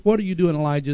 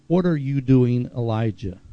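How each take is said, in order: First: Scolding, a touch higher on what; a mild cynical reproach. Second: Said in the usual way. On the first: Shown as a demonstration. God scolding the sulking prophet, lightly cynical. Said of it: "It's "What are you doing here? ... You should know better". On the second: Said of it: "this "What are you doing, Elijah?" is not about".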